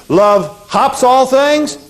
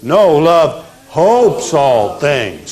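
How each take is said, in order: First: "hops" slow and high as a question; mock-wrong "hops" with a rising ask; wrong word. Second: "hopes" with a long o, slow and firm; corrected word. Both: Shown as a demonstration.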